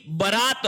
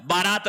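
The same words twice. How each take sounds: First: बारात with short first vowel, "ba-raat"; correct pronunciation. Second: बारात with long first vowel, "baa-raat"; wrong pronunciation. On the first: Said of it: "जबकि बारात होता है". (बारात का पहला स्वर छोटा "ब") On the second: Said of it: "बारात नहीं होता है". (बारात का पहला स्वर लंबा "बा") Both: Shown as a demonstration.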